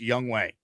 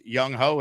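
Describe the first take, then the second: First: The second syllable sounds like way. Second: The second syllable sounds like ho. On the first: This is the official pronunciation of the name. The speaker calls it right. "it's Young Wei" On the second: This is how the spelling seems to read. The speaker calls it wrong. "Even though it looks like it's Young Ho"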